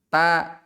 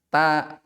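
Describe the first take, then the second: Both takes have the same delivery.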